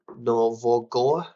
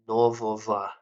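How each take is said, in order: First: The word is sounded out exactly as written. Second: The word follows its everyday spoken pronunciation. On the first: The speaker calls it wrong. "not нового. You know that's how it's pronounced. I mean written" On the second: The speaker calls it right. "is how you would pronounce that"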